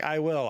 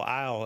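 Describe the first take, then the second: First: I WILL as two separate words; full uncontracted I WILL. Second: I'LL run into one short word; quick, unstressed I'LL; contracted I'LL. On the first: Script reviewer showing what the script says, stress on WILL. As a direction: give WILL its full weight. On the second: Script reviewer showing how people contract everything, contracted I'LL. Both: Shown as a demonstration.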